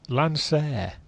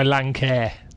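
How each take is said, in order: First: The second syllable sounds like 'sir'. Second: The second syllable sounds like 'care'. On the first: "How do we pronounce it" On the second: "As opposed to my"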